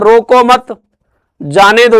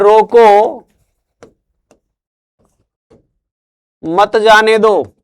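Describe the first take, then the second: First: There is a pause after 'mat'. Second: There is a pause after 'roko'.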